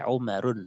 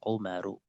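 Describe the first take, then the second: First: The name ends with an n sound. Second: The name ends with a plain vowel. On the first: The speaker calls it wrong. "nggak boleh Umarun" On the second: The speaker calls it right. "harus Umaru"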